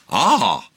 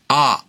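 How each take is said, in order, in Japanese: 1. 最初に下がって、それから上がります。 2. 音の高さは、まっすぐ平らです。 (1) "第三声が一度下がって上がるだ。" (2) "第一声が、あー、まっすぐ。"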